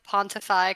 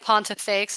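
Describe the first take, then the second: First: The name ends with an open vowel sound. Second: The name ends with a final 'ks' sound. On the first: The speaker calls it right. "I think it's like Pontify, kind of like faux pas" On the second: The speaker calls it wrong. "I don't think it's pronounced like Pontifex"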